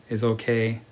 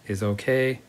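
Both takes have the same delivery.

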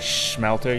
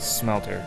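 First: The word begins with an SH sound. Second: The word begins with a plain S sound. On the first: The speaker calls it wrong. "an SH sound on it" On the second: The speaker calls it right. "you say Smelter"

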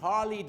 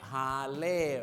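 First: The last syllable is said with an English accent. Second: The last syllable is said with a Thai accent. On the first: The speaker calls it right. "ถ้าเป็นภาษาอังกฤษต้องเป็น" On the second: The speaker calls it wrong. "ถ้าเป็นสำเนียงไทยจะเล่"

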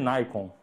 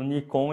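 First: The first vowel sounds like eye. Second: The first vowel sounds like ee.

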